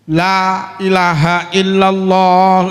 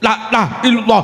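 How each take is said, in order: First: It is said slowly with the long vowels drawn out. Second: It is said quickly with the long vowels clipped short. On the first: The speaker calls it right. "Zikir ki lame didawakne to" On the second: The speaker calls it wrong. "wadah kesusu"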